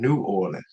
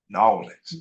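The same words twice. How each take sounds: First: It is said as two separate words. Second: It is run together as one word.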